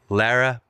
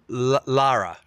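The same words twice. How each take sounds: First: The first syllable does not rhyme with car. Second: The first syllable rhymes with car. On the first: The speaker calls it wrong. "You said it wrong" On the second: The speaker calls it right.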